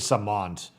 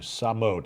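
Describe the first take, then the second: First: There is an 'n' sound before the 't'. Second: There is no 'n' sound before the 't'. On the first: The speaker calls it wrong. "I've probably been saying that wrong" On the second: The speaker calls it right. "that's an H, not an N"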